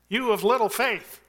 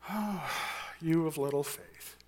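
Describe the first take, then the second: First: It sounds warm and encouraging. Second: It sounds like a disappointed rebuke.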